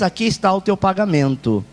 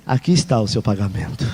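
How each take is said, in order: First: Said in the usual way. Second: Gentle grace. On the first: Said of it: "lei é assim". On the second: Shown as a demonstration. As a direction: hand it over like a free gift. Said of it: "Graça é mesmo que você não fez".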